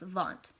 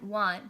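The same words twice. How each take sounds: First: It starts with a Swiss V sound. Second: It starts with an American W sound.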